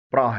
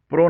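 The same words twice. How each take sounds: First: پرا said "pruh"; correct first syllable. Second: پرو said "pro"; wrong first syllable. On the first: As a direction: open neutral vowel in پرا. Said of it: "پرا ہے". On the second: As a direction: round o in پرو. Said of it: "نہیں ہے بلکہ". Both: Shown as a demonstration.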